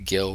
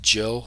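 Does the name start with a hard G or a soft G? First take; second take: hard G; soft G. First: The name starts with a hard G sound. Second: The name starts with a soft J sound. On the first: The speaker calls it wrong. "not Gill, like the fish" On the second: The speaker calls it right. "It's pronounced Jill, like the girl, soft G"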